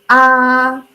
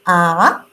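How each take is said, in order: First: The pitch stays high, level and long. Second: The pitch rises from lower to higher. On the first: "So that would be the first tone" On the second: "Second tone you can see is like goes up"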